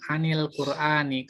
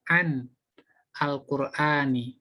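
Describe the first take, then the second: First: The words are joined together in one flow. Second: The words are said separately, not joined. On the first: "Kalau dibaca sambung langsung" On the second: "Kalau dibaca pisah"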